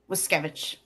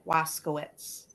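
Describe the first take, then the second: First: The surname is pronounced the Polish way. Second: The surname is pronounced the Americanized way. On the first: This is the family's original pronunciation. The speaker calls it right. "it's Wiskevich" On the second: It is said this way to sound more American. The speaker calls it wrong. "the family would pronounce it Waskowitz"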